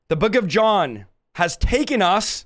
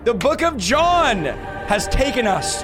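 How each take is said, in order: First: It is said in his normal speaking voice. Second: It is said in a dramatic announcer voice.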